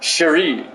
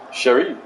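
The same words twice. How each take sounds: First: Said in the usual way. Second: Cherie said the French way, lower with a rising end; a lightly French Cherie; French pronunciation. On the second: Shown as a demonstration. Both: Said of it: "Say it like you're French".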